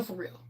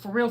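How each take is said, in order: First: "for real" said again much softer, trailing away; a quieter second "for real"; soft echo. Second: Said in the usual way. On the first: Shown as a demonstration. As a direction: repeat "for real" under your breath. Repeats "for real" for emphasis.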